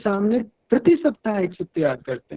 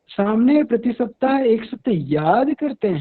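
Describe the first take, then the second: First: The stress falls on 'prati saptah'. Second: The stress falls on the word 'yaad'. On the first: It is done every week, not every day. "यदि प्रति सप्ताह पर जोर दे रहे हैं" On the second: It is memorized, not written down repeatedly. "यानी कि याद कर रहे हैं"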